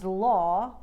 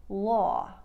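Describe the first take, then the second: First: Said in the usual way. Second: "law" with a narrow, drawn-out vowel; New York "law", long gliding aw. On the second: Shown as a demonstration. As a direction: stretch "law" and end on an off-glide. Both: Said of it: "law will sound like".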